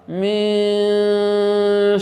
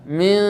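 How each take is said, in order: First: The vowel after the m is drawn out. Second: The vowel after the m is kept short. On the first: The speaker calls it wrong. "kayak kita memanjangkan mim mimnya" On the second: The speaker calls it right. "Jadi langsung saja min"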